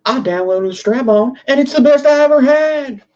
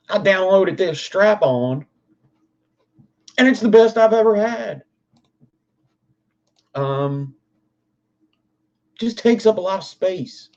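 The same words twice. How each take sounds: First: Much higher, louder nasal mock white-guy voice; Dave Chappelle white-guy voice. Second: Higher, twangy redneck accent, lightly put on. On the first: Streamer redoes the line for chat as a goofy white-guy impression. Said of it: "like a Dave Chappelle accent". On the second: Streamer fakes a redneck testimonial to chat, mock redneck accent. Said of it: "my default accent is a redneck".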